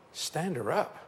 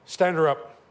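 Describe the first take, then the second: First: Quieter, rising disbelief; incredulous echo. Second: Louder, firm order to stand her up; firm command. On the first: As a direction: repeat it as if you can't believe it. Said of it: "incredulous echo". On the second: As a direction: command it with authority. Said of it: "Jack Coe said". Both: Retold or imitated.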